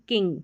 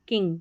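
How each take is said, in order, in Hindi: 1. अंत में एक ही मिश्रित नासिक्य ng ध्वनि होती है। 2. अंत में एक ही मिश्रित नासिक्य ng ध्वनि होती है।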